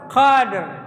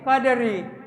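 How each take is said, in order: First: The word ends on a heavy, thick r. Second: The word ends on a light, thin r. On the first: The reciter stops on this word. "Rohnya harus ditafhim" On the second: The reciter does not stop on this word. "roh ini menjadi tarkik tipis"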